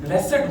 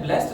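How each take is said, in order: First: The word is said as two syllables. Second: The word is said as one syllable. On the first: The blessing is visible in the person's life. The speaker calls it right. "इन्हें ब्लेसड बोला जाता" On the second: Someone is simply called blessed. The speaker calls it wrong. "इन्हें ब्लेस्ड नहीं बोला जाता"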